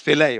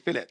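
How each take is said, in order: First: The word is said the French way. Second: The word is said the English way. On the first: "it's filet, French" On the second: "that's how we pronounced it in London"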